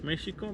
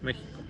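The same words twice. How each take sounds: First: The middle consonant is a 'sh' sound. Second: The middle consonant is not a 'sh' sound. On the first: This is the older native way of saying it. "The sound sh, it was very often in all Mesoamerica" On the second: This is the later Spanish way of saying it. "The Spaniards, they don't have this sound"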